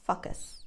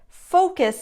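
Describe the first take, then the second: First: The first vowel is an uh sound. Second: The first vowel is a rounded o. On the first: The speaker calls it wrong. "make the first vowel a uh sound" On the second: The speaker calls it right. "round your lips"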